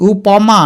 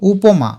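First: উপমা as u-paw-ma, drawn out; open middle vowel. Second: উপমা as u-po-ma; closed middle vowel. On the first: Teacher asking which we say, উপমা said u-paw-ma. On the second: Teacher giving the usual form, উপমা said u-po-ma. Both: Shown as a demonstration. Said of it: "প না বলে প বলি".

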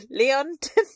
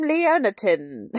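First: Leontine asked with a rising tune, lee-on-tuh; unsure pronunciation. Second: Put-on Leontine said slowly, lee-on-teen; careful pronunciation. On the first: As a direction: test Leontine as a question. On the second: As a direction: sound out Leontine syllable by syllable. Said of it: "I'm gonna pronounce her name". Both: Shown as a demonstration.

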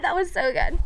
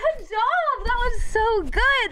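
First: Said in the usual way. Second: High, slow praise like cooing at a puppy; mock pet praise. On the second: Praising the viewer who barked like a dog, high and slow.

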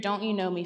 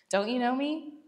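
First: Said in the usual way. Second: Higher, sassy rising "Don't you know me?". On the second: Shown as a demonstration. Jesus teasing Philip about knowing him, sassy. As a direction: tease him with a cheeky upward lilt. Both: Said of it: "I love how sassy Jesus can be sometimes".

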